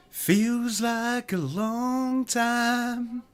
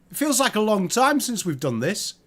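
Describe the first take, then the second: First: Very slow, much softer, stretching out long; slow, soft, wistful. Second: Said in the usual way. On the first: Acted. Repeats it slow and dreamy.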